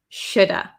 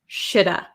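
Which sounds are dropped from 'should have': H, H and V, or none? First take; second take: H and V; H and V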